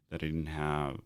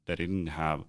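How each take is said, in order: Both takes have the same delivery.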